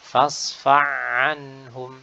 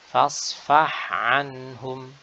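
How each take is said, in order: First: The h sound is merged into the ain. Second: The h sound is clearly pronounced before the ain. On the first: The speaker calls it wrong. "Huruf ha-nya hilang" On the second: The speaker calls it right. "dibaca dengan sakinah dan jelas"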